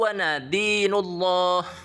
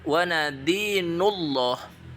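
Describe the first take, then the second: The two takes are said the same way.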